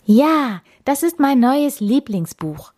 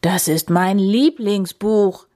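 First: Higher, pleased declaration; keen declaration. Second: Mildly raised, indignant exclamation; bear calling out. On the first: Fox declaring a new favourite book, keen and lifted. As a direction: announce it with happy emphasis. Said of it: "erklärte der Fuchs". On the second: Bear interrupting the mouse, mildly raised cry. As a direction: cut in with a firm claim. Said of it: "rief der Bär". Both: A narrator's reading.

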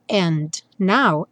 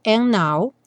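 First: And now with the D pronounced; full and now. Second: And now said "an now", D gone; dropped D. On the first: Teacher gives the careful version with the D. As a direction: say the D of and clearly. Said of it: "ao invés de falar and now". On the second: Teacher gives the linked version without D. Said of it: "tirar o D". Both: Shown as a demonstration.

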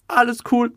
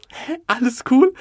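First: High-pitched attempt at casualness; trying to sound cool. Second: Very high, rising incredulous question; baffled self-mockery. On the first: Nervous interviewer answers the rapper's greeting, trying too hard to sound cool. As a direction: overeager reply, pitched way up. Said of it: "ich muss jetzt cool wirken". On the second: Comedian questions his own awkward reply to the rapper, incredulous. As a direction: squeak it back as a puzzled question.

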